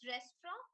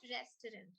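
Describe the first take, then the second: First: The T is barely pronounced, almost silent. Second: The T is pronounced clearly. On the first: The speaker calls it right. "T is very, very minutely pronounced" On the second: The speaker calls it wrong. "not restaurant"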